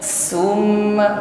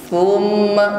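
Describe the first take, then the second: First: The first consonant is a sharp hissing s. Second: The first consonant is a soft breathy th. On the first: The speaker calls it wrong. "saya ganti sin berarti bunyinya summa" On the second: The speaker calls it right. "Hanya angin saja, nafas"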